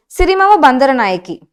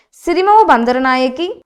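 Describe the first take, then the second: No difference in how they are said.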